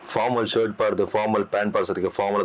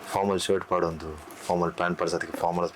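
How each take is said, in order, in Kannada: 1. ಈ ಸಾಲನ್ನು ಸರಳವಾಗಿ ಹೇಳಲಾಗಿದೆ. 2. ಈ ಸಾಲನ್ನು ರೊಮ್ಯಾಂಟಿಕ್ ಆಗಿ ಹೇಳಲಾಗಿದೆ.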